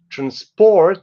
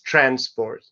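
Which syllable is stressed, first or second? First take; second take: second; first. First: The stress is on the second syllable. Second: The stress is on the first syllable. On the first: It is used as a verb. "the verb transport" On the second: It is used as a noun. "the noun is transport"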